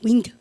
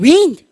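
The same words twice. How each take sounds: First: The word is said softly and gently. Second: The word is said loudly and forcefully. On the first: The wind is blowing a little. "바람이요 조금 불면" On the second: The wind is blowing hard. "세게 불면 윈드 이렇게 하면 안 된다"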